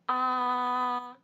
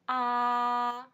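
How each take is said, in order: First: The pitch stays high and level. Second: The pitch stays high and level.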